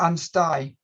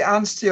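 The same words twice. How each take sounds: First: Anstey said "AN-sty"; Anstey rhyming its last syllable with "sky"; Anstey ending in -eye. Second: Anstey said "AN-stee"; Anstey rhyming its last syllable with "see"; Anstey ending in -ee. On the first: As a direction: end Anstey with an "eye" sound. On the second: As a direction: end Anstey with an "ee" sound. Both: Shown as a demonstration. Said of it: "Is it Anstey or Anstey?".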